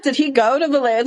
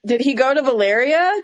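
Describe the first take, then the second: First: Fast, higher repeat with "go" punched; stress on GO. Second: "Did he go to Valyria?" pitched up, rising at the end; incredulous question. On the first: Co-host pressing the same question, incredulous stress on "go". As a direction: hit "go" hard and hurry the rest, falling. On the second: Co-host questioning where he got the stone, incredulous rise on "Valyria". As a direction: raise "Valyria" into a disbelieving question. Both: Real, not acted.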